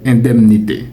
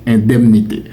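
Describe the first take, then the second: Both takes have the same delivery.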